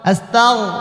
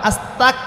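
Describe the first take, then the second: First: It is said with a throaty gh sound. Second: It is said with a hard k sound. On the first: It asks for forgiveness of sins. The speaker calls it right. "এটা থ্রোট হলকের শেষ ভাগ হইতে গইন খ উচ্চারিত হয়" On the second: It asks to be made a disbeliever. The speaker calls it wrong. "আস্তাগফিরুল্লাহ অর্থ হচ্ছে আল্লাহ আমি কাফের হতে চাই"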